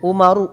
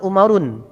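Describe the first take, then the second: First: The name ends on a vowel without n. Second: The name ends with an added n sound. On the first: The speaker calls it right. "tidak menerima tanwin" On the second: The speaker calls it wrong. "bukan umarun"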